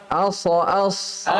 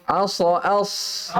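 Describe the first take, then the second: Both takes have the same delivery.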